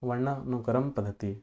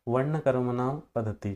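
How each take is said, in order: First: वर्णानुक्रम said carefully as varnanukram in one word; corrected pronunciation. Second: वर्ण कर्मणाम पद्धति stumbled as varna karmanam, wrong syllables; tongue-slip mispronunciation. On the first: Shown as a demonstration. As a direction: get वर्णानुक्रम पद्धति right, syllable by syllable. (सही उच्चारण: वर्णानुक्रम पद्धति) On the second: Real, not acted. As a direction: trip over वर्णानुक्रम, saying वर्ण कर्मणाम instead. (ग़लत उच्चारण: वर्ण कर्मणाम पद्धति) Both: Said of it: "sorry, ये actually क्या हो रहा है".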